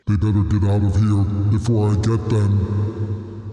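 It is said in an intimidating voice.

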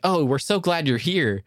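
It is said in a sincere, genuine tone.

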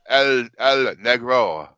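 It is said in an exaggerated Spanish accent. The speaker calls it wrong. "You try like El Negro"

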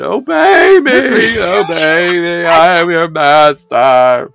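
It is said in a desperate, dramatic tone.

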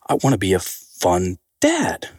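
The voice falls at the end.

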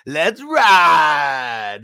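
The ending sounds positive and enthusiastic.

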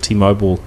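It is said in an American pronunciation.

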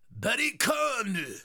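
It is said in a Japanese accent.

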